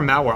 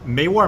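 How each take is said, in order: First: The first vowel sounds like 'ah'. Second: The first vowel sounds like 'eh'. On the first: The speaker calls it right. "Mawar, let's call it that" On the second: The speaker calls it wrong. "I called it Mewar yesterday, and some people were saying, no, you're pronouncing it wrong"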